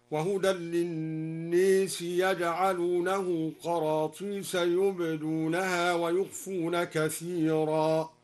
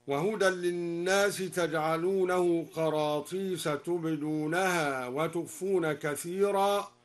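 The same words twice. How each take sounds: First: "يجعلونه" with ya and "للناس" bent toward e, slow; al-Duri reading. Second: "تجعلونه" with ta; standard reading. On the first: Teacher demonstrates al-Duri's ya reading, slow tarteel. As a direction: slowly say "يجعلونه" with ya. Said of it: "هكذا". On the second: Teacher quoting the standard reading, plain chant. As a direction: say taj'alunahu plainly. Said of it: "قرأ الدوري بإمالة الناس". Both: Shown as a demonstration.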